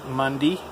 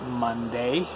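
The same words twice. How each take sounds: First: The last syllable ends with an 'ee' sound. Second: The last syllable ends with an 'ay' sound. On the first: The speaker calls it wrong. "I say it with an E instead of an A" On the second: The speaker calls it right. "is supposed to be"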